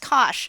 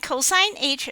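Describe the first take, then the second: First: It is said as the single syllable cosh. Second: It is said in full as cosine h. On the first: The speaker calls it wrong. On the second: The speaker calls it right.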